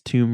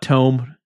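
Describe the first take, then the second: First: The vowel sounds like the vowel in 'room'. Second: The vowel sounds like the vowel in 'home'. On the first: The speaker calls it right. "it's Tomb Raider" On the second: The speaker calls it wrong. "Not Tome"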